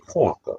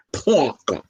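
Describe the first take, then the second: First: Said in the usual way. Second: Parker with a broad New York accent, dropped r. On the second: Shown as a demonstration. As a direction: say Parker like a New Yorker, Pawker. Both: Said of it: "That's my New York accent".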